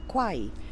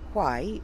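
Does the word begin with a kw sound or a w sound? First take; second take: kw; w. First: The word begins with a kw sound. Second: The word begins with a plain w sound. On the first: "is said qua" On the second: "W H wh"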